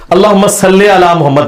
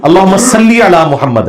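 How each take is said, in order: First: "صلی" said as sal-lay, with an open e; majhool mispronunciation. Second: "صلی" said as sal-lee, with a pure long i; correct maroof pronunciation. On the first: Teacher quoting how scholars misread durood, majhool "le". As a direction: end "صلی" on "le" instead of "li". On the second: Teacher correcting the durood, maroof "li". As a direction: end "صلی" on a clear "li". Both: Shown as a demonstration. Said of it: "یہ صلی اللہ تو غلط ہے".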